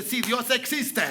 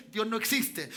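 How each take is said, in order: First: Slow, drawn-out declaration of faith; emphatic affirmation. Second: Said in the usual way. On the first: Acted. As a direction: stretch EXISTE out with conviction. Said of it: "El lenguaje del Hijo de Dios dice". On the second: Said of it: "ese es el lenguaje del ateo".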